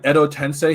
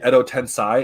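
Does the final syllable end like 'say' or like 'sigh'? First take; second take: say; sigh. First: The final syllable ends with an 'ay' vowel. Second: The final syllable ends with an 'eye' vowel. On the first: The speaker calls it right. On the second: The speaker calls it wrong.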